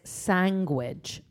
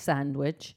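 First: The word starts 'san' with no 'd' sound. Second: The word starts 'sand' with a clear 'd' sound. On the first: This is how the mother says it. The speaker calls it wrong. "My mum says sandwich" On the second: This is how the child thinks it should be said. The speaker calls it right. "not sandwich"

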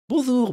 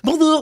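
First: It sounds gentle and friendly. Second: It sounds angry and aggressive.

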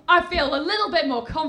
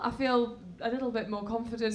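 First: It is shouted loudly. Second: It is said at normal volume.

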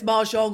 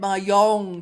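First: The J sound is clearly pronounced. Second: The J sound is left silent. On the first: The speaker calls it right. "It's a loud J" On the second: The speaker calls it wrong. "I thought it was a silent J"

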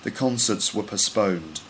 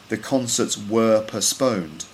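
First: The word 'were' is reduced to a weak form. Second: The word 'were' has its full, strong vowel. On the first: "you might hear someone saying ... That's a weak form" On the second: "instead of saying"

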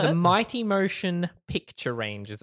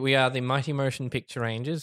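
First: It is said slowly and deliberately. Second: It is said at normal speed.

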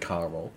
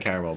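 First: It is said with an American pronunciation. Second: It has the speaker's own non-American pronunciation. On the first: "the Americans say caramel" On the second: "We say caramel"

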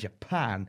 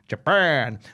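First: It is said in a plain, normal speaking voice. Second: It is said in a dramatic video-game announcer voice.

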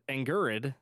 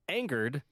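First: The word is pronounced like 'angrid'. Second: The word is pronounced as standard 'angered'. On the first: The speaker calls it wrong. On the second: The speaker calls it right.

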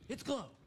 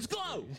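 First: It is said with little intensity. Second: It is said with strong intensity. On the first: The speaker calls it wrong. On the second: The speaker calls it right.

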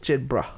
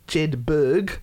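First: The name ends with a 'bruh' sound. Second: The name ends with a 'berg' sound. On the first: The speaker calls it right. "But it's Jedbrah" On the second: The speaker calls it wrong. "looking at it in our pronunciations, we'd say Jedberg"

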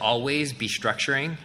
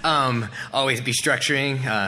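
First: It is said in the speaker's ordinary voice. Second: It is said in an imitated tough character voice.

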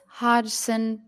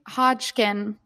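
First: The name is said with an S sound. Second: The name is said with a K sound. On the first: The speaker calls it right. "There is no Hodgkin there" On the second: The speaker calls it wrong. "We've been putting in a magic K"

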